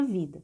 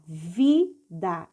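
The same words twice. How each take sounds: First: Said in the usual way. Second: "Vida" split into vi, da; teacher's two-beat reading of "Vida"; syllable by syllable. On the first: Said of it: "Essa é a palavra vida". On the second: Shown as a demonstration. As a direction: sound out "Vida" slowly, each syllable separate. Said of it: "vamos ler passo a passo".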